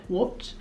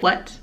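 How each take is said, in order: First: Quiet, rounded mock-British question; puzzled boyfriend in a shaky attempt at British; attempted British accent. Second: Said in the usual way. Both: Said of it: "he has an accent".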